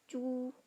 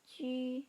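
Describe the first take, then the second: First: The vowel is a plain back oo sound. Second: The vowel is a rounded front ü sound. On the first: The speaker calls it wrong. "bukan cu" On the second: The speaker calls it right. "kita baca C"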